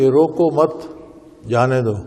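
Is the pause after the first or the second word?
second. The pause comes after the second word.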